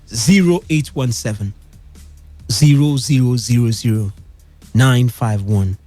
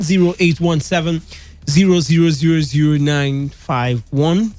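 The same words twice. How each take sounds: First: The number is read slowly and deliberately. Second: The number is read at normal, quicker speed.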